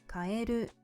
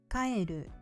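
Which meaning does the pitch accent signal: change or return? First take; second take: change; return. First: It has the pitch accent of 'change'. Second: It has the pitch accent of 'go back'. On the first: The word means to change. "which means to change" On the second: The word means to go back. "which means to go back"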